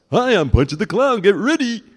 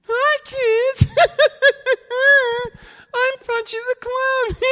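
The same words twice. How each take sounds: First: High, loud clown announcer voice; big pitched-up carnival clown; Punchy the Clown. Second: Crummy, squeaky-high clown voice with a giggle; ridiculous falsetto clown, loud and cackling; Punchy the Clown. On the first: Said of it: "they used two voices for Punchy". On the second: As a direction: put on a terrible, extremely high clown voice. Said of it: "you wanna hear the, the crummy voice". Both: Shown as a demonstration.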